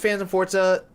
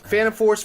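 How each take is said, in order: First: The last word ends with an added 'ah' vowel. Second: The last word ends without a final vowel. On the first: "I think it is pronounced like Forza" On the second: "maybe he said it's Phantom Force then"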